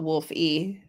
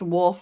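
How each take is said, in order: First: The name is said with an added second syllable. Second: The name is said as one syllable. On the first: The speaker calls it wrong. "and not Wolf E" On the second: The speaker calls it right. "it's pronounced Wolf"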